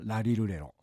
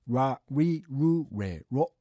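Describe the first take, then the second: First: The tongue touches the roof, giving L sounds. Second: The tongue stays off the roof, giving R sounds. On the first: "舌をですね上顎にくっつけています よ、ラリルレロで、それはL の発音です" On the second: "舌をつけないで発音、つまりラリルレロ、これがR の発音ですね"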